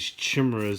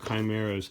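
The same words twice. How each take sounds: First: The word is said with the speaker's old pronunciation. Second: The word is said with its real pronunciation. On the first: The speaker calls it wrong. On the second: The speaker calls it right.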